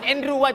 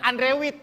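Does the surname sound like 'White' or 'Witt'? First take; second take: White; Witt. First: The surname sounds like 'white', with a long vowel. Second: The surname sounds like 'witt', with a short vowel. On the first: The speaker calls it right. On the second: The speaker calls it wrong. "bukan Andre Witt"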